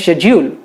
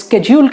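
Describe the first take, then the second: First: The word begins with an sh sound. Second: The word begins with an sk sound. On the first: This is the British way of saying it. "UK वाले इसे कहते हैं शेड्यूल" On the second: This is the American way of saying it. "US में इसे स्केड्यूल कहते हैं"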